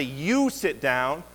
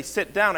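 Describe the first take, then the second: First: "You" leaned on, "sit down" spoken very slowly; stress on you. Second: Said in the usual way. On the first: Shown as a demonstration. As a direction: make sure the student knows it's them. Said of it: "I say". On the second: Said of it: "I don't just say".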